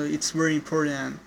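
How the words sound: The t in important sounds like a d. "in American accent, the T word it's change it to the D"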